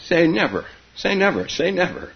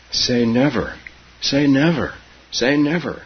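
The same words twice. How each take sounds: First: Put-on high, playful child's "say never"; gurgled giggly plea. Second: Put-on higher child's "say never", mildly urgent; gasped plea. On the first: Keza tickled by Grandma, mildly gurgled plea. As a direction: tumble out the repeats high, hinting at giggles. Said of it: "gurgled Keza". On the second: Keza kissing Grandma for a promise, mildly gasped plea. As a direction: repeat the plea in separate bursts, pitched up. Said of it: "she gasped between the kisses". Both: A narrator's reading.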